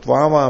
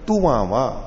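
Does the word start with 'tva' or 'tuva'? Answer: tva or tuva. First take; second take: tva; tuva. First: The word begins with the cluster 'tva'. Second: The word begins with two syllables 'tu-va'. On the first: "त्वावा में भी" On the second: "ऐसे कर लिया तुवावा"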